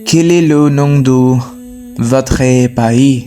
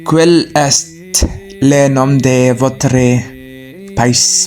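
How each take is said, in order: First: Silent letters are dropped, with native French sounds. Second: Every written letter is sounded out, including silent ones. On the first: The speaker calls it right. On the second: The speaker calls it wrong.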